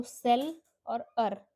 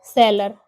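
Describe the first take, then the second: First: सेलर broken slowly into सेल and अर; split into syllables. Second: सेलर as one whole word, loud and firm; syllables joined. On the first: Teacher showing the two sounds, सेल and अर held apart. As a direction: give सेल and अर each its own slow beat. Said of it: "दोनों के अलग-अलग sounds हैं". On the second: Teacher completing the sound demo, सेलर whole and emphatic. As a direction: put सेल and अर back together into a loud सेलर. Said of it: "तो सेल और अर". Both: Shown as a demonstration.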